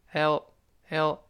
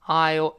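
First: 'I'll' shrunk to a light 'L'; light reduced form. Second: 'I'll' said full and slow; slow stressed form. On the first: Teacher showing the unstressed form, 'I'll' reduced to light 'L'. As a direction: skim over 'I'll' as a weak short 'el'. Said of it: "轻读". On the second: Teacher contrasting strong and weak forms, slow full 'I'll'. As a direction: give 'I'll' its whole long vowel and dark l. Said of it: "是重读，读得慢". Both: Shown as a demonstration.

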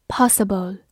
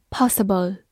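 Both takes have the same delivery.

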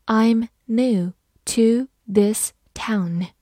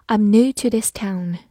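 First: Slow, word-by-word demonstration; measured teacher model with every word separated; slow reading. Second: Said in the usual way. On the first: Shown as a demonstration. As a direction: read it slowly, pausing after each word. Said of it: "慢慢来读".

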